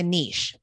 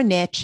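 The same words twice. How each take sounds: First: "niche" said "neesh", rhyming with leash; "niche" with long ee, ending in sh. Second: "niche" said "nitch", rhyming with rich; punched "niche", pronounced like "nitch". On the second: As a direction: say "niche" with a short i and a tch ending. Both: Shown as a demonstration. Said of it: "however you want to say it".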